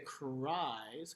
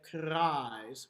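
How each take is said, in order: First: The R is a smooth glide. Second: The R is flipped or rolled. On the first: The speaker calls it wrong. "we don't say cries because that's a glide" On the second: The speaker calls it right. "We usually flip or roll it"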